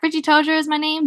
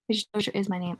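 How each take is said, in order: First: Higher-pitched showman's patter; playful, lifted self-introduction; showy introduction. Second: Soft throwaway reread; muttered repeat. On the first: Acted. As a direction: announce yourself with a flourish. Richie introduces himself with a flourish. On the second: Real, not acted. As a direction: say it under your breath to yourself. Reader mutters the line over.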